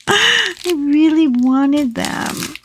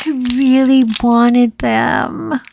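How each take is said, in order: First: Drawn-out whine, slow; childish whine. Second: Said in the usual way. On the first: Pretend. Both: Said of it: "nine-year-old".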